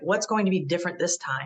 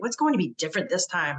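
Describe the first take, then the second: First: It is said in a plain, neutral tone. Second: It is said in an angry, sarcastic tone. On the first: "instead of saying something like" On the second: "you know how we say that? ... you're all mad"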